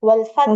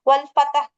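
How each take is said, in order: First: The t is held and ends in a breath. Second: A short vowel is added after the t sound. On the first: The speaker calls it right. "ஒரு சின்ன ஏர் ரிலீஸ் பண்ணிட்டு ஹே முடிக்கணும்" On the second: The speaker calls it wrong. "தே சுக்கூன் வந்து தே ஃபத்தாவா வருது பாத்தீங்களா?"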